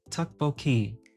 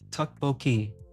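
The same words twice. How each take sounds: The two takes are said the same way.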